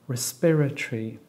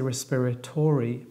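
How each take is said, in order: First: The O is dropped, giving four syllables. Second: The O is pronounced, giving five syllables. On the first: The speaker calls it right. "respiratory only has four syllables, because we don't pronounce the O" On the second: The speaker calls it wrong. "we don't say respiratory"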